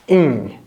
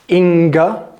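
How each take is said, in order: First: It ends in ng with no hard g. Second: A hard g sound follows the ng. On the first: The speaker calls it right. "We do not pronounce the G at the end" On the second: The speaker calls it wrong. "Inga, no"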